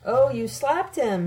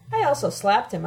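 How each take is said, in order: First: Slow, higher, drawn-out self-righteousness; self-righteous. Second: Understated, matter-of-fact admission. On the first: Professor reacts to her admission, self-righteous. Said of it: "he says self-righteously". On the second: Narrator confesses to the slap, admitting it. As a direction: admit it simply. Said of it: "I admit". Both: A narrator's reading.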